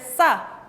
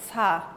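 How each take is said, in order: First: "sa" with a tight, forceful onset; effortful tense s. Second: "sa" with a loose, relaxed s; softer s. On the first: Teacher contrasting two Korean sounds, effortful tense "sa". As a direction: press hard into the s of "sa". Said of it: "tengo que hacer esfuerzo al hacer sa". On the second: Teacher contrasting two Korean sounds, soft relaxed "sa". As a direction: let the s of "sa" out gently, no pressure. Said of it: "Es más suave diciendo sa". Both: Shown as a demonstration.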